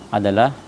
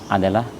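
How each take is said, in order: No difference in how they are said.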